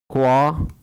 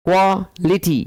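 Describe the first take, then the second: First: क्वालिटी pulled apart as क्वा, लिटी; low, long pause after क्वा in क्वालिटी; broken into syllables. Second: क्वालिटी in close beats, क्वा-लिटी; teacher enunciating क्वालिटी for the class; clear syllable reading. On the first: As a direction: dictate क्वालिटी in separated chunks. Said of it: "जिसमें एक syllable होगा". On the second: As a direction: read क्वालिटी out clearly with a tiny break. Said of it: "पढ़ना है जोर से". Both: Shown as a demonstration.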